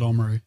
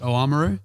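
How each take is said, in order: First: The word is said with its opening dropped. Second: The word is said with its full opening. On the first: It is the way locals say it. "whereas a local will call it Oamaru" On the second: It is the way the news says it. "if you watch the evening news, they tend to pronounce it Oamaru"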